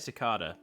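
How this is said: It is said with an Australian pronunciation. "I would say cicada, being in Australia"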